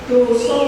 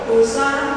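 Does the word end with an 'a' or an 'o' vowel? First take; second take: o; a. First: Both vowels are pronounced as o. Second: Both vowels are pronounced as a. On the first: This is the standard Javanese way of reading it. "membaca A jadi O" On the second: This is how Purwokerto speakers say it. "Biasa orang Purwokerto ngomong dosa"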